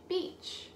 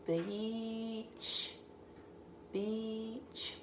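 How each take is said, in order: First: "beach" said quickly and much higher; bright quick read. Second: Softer slow "beach"; soft sounding out. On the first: Teacher reading "beach" quickly to the child. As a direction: pop out "beach". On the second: Teacher sounding out "beach" for the child. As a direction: ease "beach" out quietly. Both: Shown as a demonstration. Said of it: "C H at the end".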